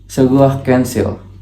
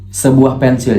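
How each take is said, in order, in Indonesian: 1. Bunyi p diganti dengan k. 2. Bunyi p diucapkan dengan normal.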